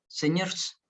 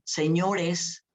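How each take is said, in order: First: The o vowel in the ending is dropped. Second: The o vowel in the ending is fully pronounced. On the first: "sino dicen señores" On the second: "las personas no dicen señores"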